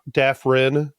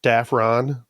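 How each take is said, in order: First: Dafrin with a short "rin" ending; correct Dafrin. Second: Dafron with a full "ron" ending; common Dafron. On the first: Host giving own surname, correct Dafrin. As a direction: say Dafrin, last syllable reduced. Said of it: "supposed to be pronounced Dafrin". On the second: Host quoting others' version of surname, Dafron. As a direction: say Dafron, last vowel open. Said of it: "everybody says Dafron". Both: Shown as a demonstration.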